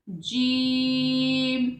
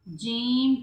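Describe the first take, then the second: First: No sound goes through the nose. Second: The sound goes through the nose. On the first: The speaker calls it right. "नाक में आवाज बिल्कुल नहीं जाएगी।" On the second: The speaker calls it wrong. "बाज़ोकात जीम कह दिया जाता है, ऐसे नहीं कहना।"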